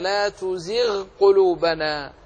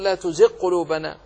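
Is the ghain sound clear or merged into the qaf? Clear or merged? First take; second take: clear; merged. First: The ghain sound is pronounced clearly before the qaf. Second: The ghain sound is merged into the following qaf. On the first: The speaker calls it right. "أظهر الغين" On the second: The speaker calls it wrong. "ولا تقل"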